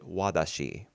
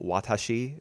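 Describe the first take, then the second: First: The middle consonant is a soft D sound. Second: The middle consonant is a clear T sound. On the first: "She kind of pronounces it wadashi" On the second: "wants to pronounce the the T in some words, like for example"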